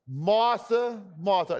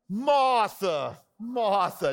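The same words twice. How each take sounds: First: The name is read flatly, with little inflection. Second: The name is read with lively, expressive inflection. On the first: The speaker calls it wrong. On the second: The speaker calls it right.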